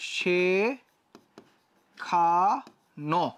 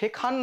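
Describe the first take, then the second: First: The word ends with an 'o' vowel sound. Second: The word ends on the consonant 'n'. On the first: The speaker calls it right. "দেখো এটা হচ্ছে শেখানো" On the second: The speaker calls it wrong. "এটা কিন্তু শেখান না"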